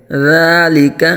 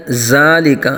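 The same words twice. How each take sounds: First: ذَلِكَ with a soft ذ, tongue between the teeth; soft dhal. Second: ذَلِكَ said with a hard ز instead of ذ; wrong z sound. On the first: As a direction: ease gently into the ذ of ذَلِكَ. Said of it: "نرمی سے پڑھا جائے گا". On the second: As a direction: say ذَلِكَ as zalik. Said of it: "یہ غلط ہے". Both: Shown as a demonstration.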